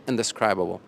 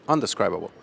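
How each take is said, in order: First: Indescribable with the prefix "in-", clearly. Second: Undescribable with "un-", like "un" in undo; prefix un-. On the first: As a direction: say "in-describable", stressing "in". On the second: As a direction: say "Un-describable", opening with "un". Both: Shown as a demonstration. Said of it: "In or on?".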